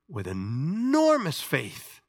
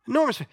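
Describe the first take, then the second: First: Enormous drawn out slowly; slow weighty enormous faith; slow stress on enormous. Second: Enormous jumps up high; raised echo of enormous; high stress on enormous. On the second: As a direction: lift enormous high and bright. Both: Shown as a demonstration.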